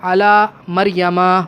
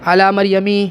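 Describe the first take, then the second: First: The last word ends with an 'a' vowel. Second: The last word ends with an 'i' vowel. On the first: This word cannot take the 'i' ending. The speaker calls it right. "ज़ेर की जगह क्या आपको नज़र आएगा? ज़बर।" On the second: This is the form the general rule predicts. The speaker calls it wrong. "उसूलन क्या होना चाहिए था? मरियमी होना चाहिए था।"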